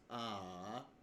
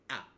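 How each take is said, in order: First: The pitch dips down and then rises. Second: The sound is cut off sharply and short. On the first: "a dipping and then rising tone" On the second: "a really sharp, clear, and, and short manner"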